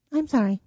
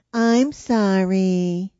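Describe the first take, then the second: First: Quick, lighter forced apology; made to sound meant. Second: Loud, slow, grudging fake sorry; insincere apology. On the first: Retold or imitated. Child apologizing after Mom's scolding, short and pretended. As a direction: redo the sorry briefly, pretending to mean it. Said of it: "like you mean it". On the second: Child forced to apologize to her sister, drawn-out and insincere. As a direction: drag out a sorry you don't mean. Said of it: "I just pretended to".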